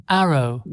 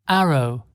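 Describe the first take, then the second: No difference in how they are said.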